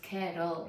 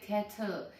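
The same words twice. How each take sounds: First: The middle consonant is a soft D sound. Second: The middle consonant is a clear T sound. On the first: The speaker calls it right. "you're gonna say D" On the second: The speaker calls it wrong. "don't pronounce it kettle"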